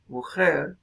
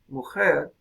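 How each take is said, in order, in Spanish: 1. La consonante del medio es una fricación áspera en la garganta. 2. La consonante del medio es una fricación áspera en la garganta.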